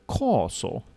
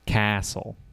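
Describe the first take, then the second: First: It is said with a British accent. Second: It is said with an American accent.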